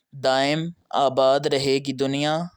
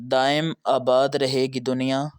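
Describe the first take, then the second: Both takes have the same delivery.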